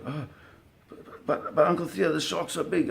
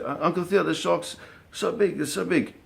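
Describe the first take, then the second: First: Put-on high, stammering scared boy voice; a boy pleading with his uncle, high and scared; scared kid. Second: Put-on scared kid. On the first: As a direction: imitate a frightened twelve-year-old pleading. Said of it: "Devin already getting afraid". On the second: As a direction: stretch it out like a frightened boy. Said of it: "Devin's like".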